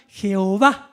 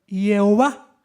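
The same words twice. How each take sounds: First: "Jehová" said "heh-o-VA", with a Spanish j; "Jehová" in Spanish, stressed on the final "VA". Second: "Jehová" said "ye-o-VA", with a y at the start; "Jehová" sounded out slowly as "yeh-o-VA"; Hebrew-style Jehová. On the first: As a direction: start "Jehová" on a breathy Spanish j sound. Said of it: "suena Jehová". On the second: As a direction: open "Jehová" on a "ye" glide, slowly. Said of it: "eso quedó de la siguiente manera". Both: Shown as a demonstration.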